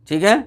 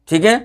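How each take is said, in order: Both takes have the same delivery.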